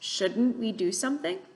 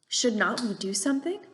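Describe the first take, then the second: First: The word not is contracted onto should. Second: The word not is said in full. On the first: The speaker calls it right. "it definitely makes more sense with that contraction" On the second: The speaker calls it wrong.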